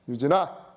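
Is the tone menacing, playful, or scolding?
scolding. The name is called in a stern, scolding tone. You might be in trouble. "혼나나? 뭐 이런 느낌"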